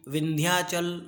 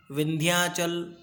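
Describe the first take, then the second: First: Said in the usual way. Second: विंध्याचल drawn out syllable by syllable; slow model pronunciation. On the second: Shown as a demonstration. Teacher repeating विंध्याचल slowly for students to copy. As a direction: spell out विंध्याचल slowly by sound. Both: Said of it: "जैसे हम बोलते हैं, वैसे आपको बोलना है".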